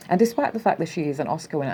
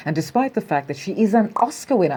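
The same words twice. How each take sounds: First: Fast, hurried rereading of the quote; fast skim through the words; rushed reread. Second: Said in the usual way. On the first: Shown as a demonstration. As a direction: rattle the line off quickly to get past it. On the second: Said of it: "Anyway, I'm reading".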